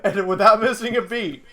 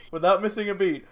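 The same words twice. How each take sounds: First: Said through laughter, louder; laughing. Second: Said in the usual way. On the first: Real, not acted. Telling friends the punchline, laughing.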